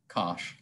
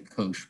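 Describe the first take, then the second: First: The word rhymes with gosh. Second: The word does not rhyme with gosh. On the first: This is how other people pronounce it. "I hear other people call it cosh, like gosh" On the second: This is the speaker's usual pronunciation. "I usually say cosh"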